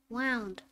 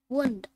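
First: "wound" said /waʊnd/, rhyming with "sound". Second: "wound" said /wuːnd/, with the oo of "moon"; wound as injury. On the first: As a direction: say "wound" like "wound up", with the ow of "cow". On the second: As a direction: say "wound" as in a cut, with a long oo. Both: Shown as a demonstration.

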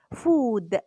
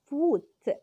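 First: فود with a clear voiced d at the end; food, final d. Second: فوت with a crisp unvoiced t at the end; foot, final t. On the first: Teacher contrasting food and foot for parents, voiced final d. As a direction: land firmly on the d of فود. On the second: Teacher contrasting food and foot for parents, crisp final t. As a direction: snap the t of فوت. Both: Shown as a demonstration. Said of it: "ونميز لأولادنا الفرق بين فود وفوت".

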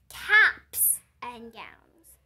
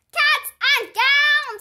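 First: "Caps" said very slowly and loud, low pitch; correcting stress on caps. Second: High, loud, slow holler of "Cats and gowns!". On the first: Missus correcting the class, "Caps" slow, loud and firm. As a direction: spell out "Caps" firmly so they hear the p. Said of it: "said Missus". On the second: Junie hollering to the class, "Cats" loud, high and drawn out. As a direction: belt out "Cats and gowns" with "Cats" stretched. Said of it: "I hollered". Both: Acted.

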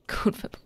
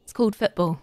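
First: Breathy laughing whisper, mock correction. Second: Said in the usual way. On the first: Repeating the chat's correction in a laughing whisper. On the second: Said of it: "you mean football?".

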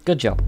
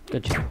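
First: Said in the usual way. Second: Much softer, breathed-out good job; whispered with a laugh. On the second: Real, not acted. Player whispering to himself after a laugh. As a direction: whisper it through a chuckle.

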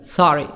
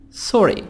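First: SORRY said the American way, open 'ah' vowel; American-accented 'sorry'; American pronunciation. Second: SORRY said the British way, rounded 'aw' vowel; British-accented 'sorry'; British pronunciation. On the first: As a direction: say SORRY as 'sah-ree', American style. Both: Shown as a demonstration.

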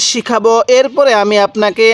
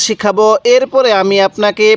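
No difference in how they are said.

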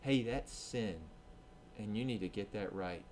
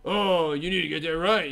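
First: Soft, quiet conviction; quiet voice of a loving God; gentle loving correction. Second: Louder, smug put-down; a smug know-it-all; arrogant correction. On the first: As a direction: correct them tenderly. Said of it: "his spirit convicts us and says". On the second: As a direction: lecture them from above. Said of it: "God isn't arrogant". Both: Retold or imitated.

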